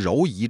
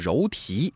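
First: The second syllable begins with a y sound. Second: The second syllable begins with a t sound. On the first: The speaker calls it wrong. "很多人呢把它念成柔夷，这是不对的" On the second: The speaker calls it right. "应该念成柔荑"

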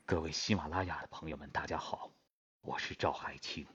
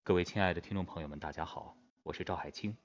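First: A more extreme voice sounds aged. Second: A backward-placed voice sounds fairly youthful.

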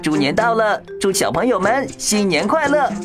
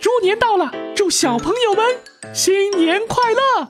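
First: It is said in a SpongeBob voice. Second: It is said in a Mickey Mouse voice.

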